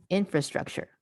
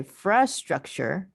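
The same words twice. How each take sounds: First: Said in the usual way. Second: "fra structure" with the fra lifted and held apart; stress on fra. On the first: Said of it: "and then the whole thing". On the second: Shown as a demonstration. Teacher drilling trainees, stressing "fra" in "fra structure". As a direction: lean on "fra" before "structure". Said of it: "so that I can emphasize the".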